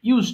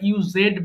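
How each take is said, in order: First: The ending is a plain 'd' sound. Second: The ending is an extra 'ed' syllable. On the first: The speaker calls it right. "ইউজড হবে simply" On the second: The speaker calls it wrong. "অনেকে ভুল করে আমরা ইউজেড বলে ফেলি"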